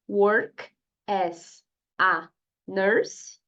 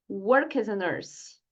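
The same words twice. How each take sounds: First: The words are said separately, not joined. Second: The words run together into one flow. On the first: The speaker calls it wrong. "que não é nada natural" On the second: The speaker calls it right. "diga work as a nurse"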